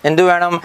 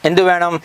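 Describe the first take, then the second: Both takes have the same delivery.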